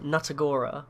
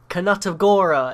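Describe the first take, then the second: First: The word starts with no K sound. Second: A K sound is pronounced at the start. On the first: It does not sound like a spell. The speaker calls it wrong. "instead of" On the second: It sounds more magical. The speaker calls it right. "how much more magical that spell will sound if you say"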